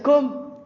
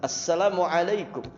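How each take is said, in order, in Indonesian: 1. Hanya suku kata terakhir kum yang terdengar. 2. Setiap suku kata diucapkan penuh dengan vokal yang jelas. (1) "Atau kedengaran kumnya saja" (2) "lebih fasih, vokalnya jelas"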